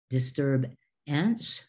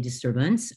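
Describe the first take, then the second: First: The ending is pronounced like 'ants'. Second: The ending is pronounced like 'unts'. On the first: The speaker calls it wrong. "We don't say ants" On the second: The speaker calls it right. "but we say disturbance, unts"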